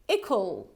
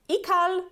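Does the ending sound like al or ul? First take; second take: ul; al. First: The ending has a reduced ul sound. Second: The ending has a full al sound. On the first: The speaker calls it right. "but it's going to be ikul" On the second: The speaker calls it wrong. "this ending is actually not ikal"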